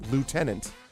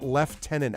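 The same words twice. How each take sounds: First: It is said in the American pronunciation. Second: It is said in a non-American pronunciation. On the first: "the American pronunciation is lieutenant" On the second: "how do you get lieutenant out of L I E U T E?"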